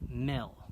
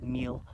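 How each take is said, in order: First: The vowel is short, like 'i'. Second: The vowel is long, like 'ee'. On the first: The speaker calls it right. "I said it right" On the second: The speaker calls it wrong. "I said meal"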